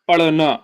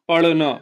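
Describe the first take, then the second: No difference in how they are said.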